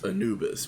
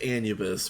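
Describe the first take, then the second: First: The middle of the word sounds like 'noob'. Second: The word is said the standard way. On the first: The speaker calls himself a beginner there. "it's Anubis because I am a noob" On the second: This is the proper name of the place. "It's it's pronounced Anubis"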